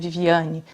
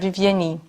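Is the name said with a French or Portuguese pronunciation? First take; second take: Portuguese; French. First: It is said the Portuguese way, with a stressed syllable. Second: It is said the French way, without a stressed syllable.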